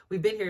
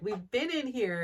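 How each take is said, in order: First: Said in the usual way. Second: "in" pushed up a touch, like a retold protest; stress on in. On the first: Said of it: "they were like". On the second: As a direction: lean on "in" to insist. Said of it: "they're like".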